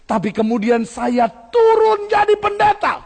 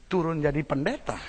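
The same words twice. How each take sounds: First: "turun" said higher and slow, louder, as the witness's own lament; the witness complaining he came down to pastor, much higher and slow; quoted witness. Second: "turun jadi pendeta" muttered low and soft to himself; the preacher's private puzzled thought, lower and softer; inner thought. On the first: Witness at the pulpit lamenting, high and slow. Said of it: "tapi dia bilang". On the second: Preacher recalling his own reaction, muttered softly. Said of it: "pikiran saya". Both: Retold or imitated.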